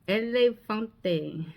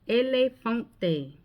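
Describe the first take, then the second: The two takes are said the same way.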